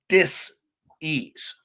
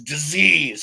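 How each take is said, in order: First: The word is said slowly, syllable by syllable. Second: The word is said quickly as one unit. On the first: It means a lack of ease. "when you say it really slowly in syllabic fashion" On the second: It is heard as one special word. "it becomes a new word"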